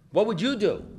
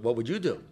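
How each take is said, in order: First: Higher, with YOU punched; insistent question. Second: Said in the usual way. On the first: Acted. Speaker putting the question to the audience, insistent stress on YOU. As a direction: lean hard on YOU in the question.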